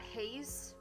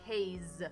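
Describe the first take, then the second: First: The name ends with a soft S sound. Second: The name ends with a buzzing Z sound. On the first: The speaker calls it wrong. "not haze" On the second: The speaker calls it right. "like haze with a Z"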